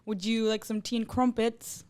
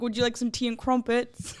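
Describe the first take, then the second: First: Slow, careful attempt at a British accent; a soft, slowed British accent, trying to get it right; mock British accent. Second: Light attempt at a posh British accent; a half-hearted British accent, tea and crumpets style; mock British accent. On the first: Shown as a demonstration. Guest retries her British accent for the UK guest. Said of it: "trying to attempt, like, a U K accent". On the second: Guest doing a quick mock British accent for the hosts. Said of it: "attempting like a U K accent".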